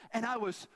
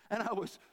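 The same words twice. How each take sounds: The two takes are said the same way.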